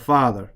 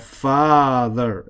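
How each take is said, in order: First: The word is said short and plain. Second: The word is drawn out long. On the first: "instead of father" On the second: "We have the ability to drag out those words a little bit"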